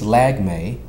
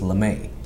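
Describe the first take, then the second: First: The surname is said the common way, 'Lag-me'. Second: The surname is said the French way, 'Le-may'. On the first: This is how most people say it. "which majority of people do uh, pronounce it" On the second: This is a fancy version said for fun. "the exotic French version way"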